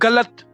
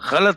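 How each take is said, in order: First: It begins with a hard, stopped g sound. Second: It begins with a throaty, rasping gh sound. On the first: The speaker calls it wrong. "ये सारे words गलत हैं" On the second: The speaker calls it right. "Basically तो गलत है"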